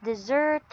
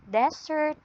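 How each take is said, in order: First: "dessert" with the stress on SERT; stress on second syllable. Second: "desert" with the stress on DES; stress on first syllable. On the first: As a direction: say "dessert" as dih-ZERT, end-stressed. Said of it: "by stress". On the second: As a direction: say "desert" as DEZ-ert, front-stressed. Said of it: "on how you read". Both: Shown as a demonstration.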